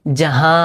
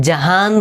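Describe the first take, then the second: First: জাহা with the final noon only nasalised; জাহা ending in a nasal vowel, no full n. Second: জাহান with a clear spoken n at the end; জাহান ending on a plain n, as it is not said; full n ending. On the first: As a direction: say জাহা with the n going into the nose. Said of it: "এরকম বলতেছে". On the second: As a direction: say জাহান sounding the final n plainly. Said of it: "জাহান বলে নেই". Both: Shown as a demonstration.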